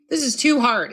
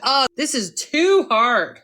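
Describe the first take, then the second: First: Said in the usual way. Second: Slow, drawn-out sigh of giving up; slow defeated complaint. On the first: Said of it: "Who hasn't said that". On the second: Shown as a demonstration. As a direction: drag it out like it's all too much. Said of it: "I have to catch myself".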